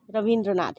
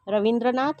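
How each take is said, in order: First: रविंद्रनाथ with a long i; रविंद्रनाथ as ra-veen-dra-naath; correct pronunciation. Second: रविंद्रनाथ with a short i; रविंद्रनाथ as ra-vin-dra-naath, quick i; wrong pronunciation. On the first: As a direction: lengthen "vi" to "vee" in रविंद्रनाथ. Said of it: "इसमें बड़ी की मात्रा लगाई". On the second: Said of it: "इसमें छोटी की मात्रा है". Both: Shown as a demonstration.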